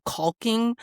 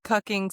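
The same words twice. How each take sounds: First: "caulking" with an open "aw" vowel; misheard word caulking. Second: "cucking" with a short "uh" vowel; original word cucking. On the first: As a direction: say "caulking", first vowel as in "talk". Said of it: "That's not what they said". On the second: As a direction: say "cucking", first vowel as in "cup". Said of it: "when he repeated it". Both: Retold or imitated.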